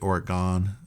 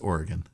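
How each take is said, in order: First: The final syllable sounds like the word 'gone'. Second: The final syllable does not sound like 'gone'. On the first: The speaker calls it wrong. "please don't say Oregon. ... It has not gone anywhere" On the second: The speaker calls it right. "It's Oregon"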